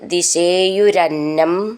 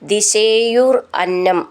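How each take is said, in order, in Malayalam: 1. രണ്ട് വാക്കുകളും ചേർത്താണ് പറയുന്നത്. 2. രണ്ട് വാക്കുകളും വെവ്വേറെയാണ് പറയുന്നത്.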